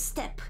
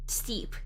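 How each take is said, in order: First: The vowel is a short 'e' sound. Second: The vowel is a long 'ee' sound. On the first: This is how the speaker expected the name to sound. "I thought it was step" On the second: This is how the voiceover says the name. "When I hear steep, I think of like S T E E P"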